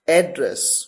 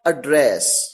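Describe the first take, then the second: First: It is said in its noun pronunciation. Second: It is said in its verb pronunciation. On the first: It means a place where someone lives. "एड्रेस मतलब पता।" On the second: It means to speak to someone. "एड्रेस का मतलब संबोधित करना, as a verb."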